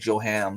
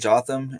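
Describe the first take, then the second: First: The middle has no 'th' sound. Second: The middle has a 'th' sound.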